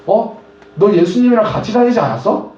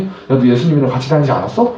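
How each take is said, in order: First: Put-on a higher, surprised girl's voice accusing Peter; lightly voiced girl, pitched up and questioning; servant girl asking. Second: Said in the usual way. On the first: (높은 목소리로 놀라 묻는 여자아이)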